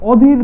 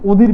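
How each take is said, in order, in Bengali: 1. প্রথম স্বরধ্বনিটি একটি খোলা 'aw' ধ্বনি। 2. প্রথম স্বরধ্বনিটি একটি বদ্ধ 'o' ধ্বনি। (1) "অ দ্বারা যদি উচ্চারণ করি" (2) "ও দ্বারা উচ্চারণ করি"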